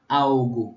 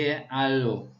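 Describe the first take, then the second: First: The L sounds like a U vowel. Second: The L is a clear L consonant. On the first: This is the Brazilian Portuguese pronunciation. "se fala no Brasil" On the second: This is the Spanish pronunciation. "no espanhol o L continua com o som de al"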